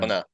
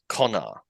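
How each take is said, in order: First: It is said in a slack Australian accent. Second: It is said in a careful British accent. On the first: "there's basically no vowel between the N and the R" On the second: "someone who was very proper British and was like taught to speak very um exactly would probably say"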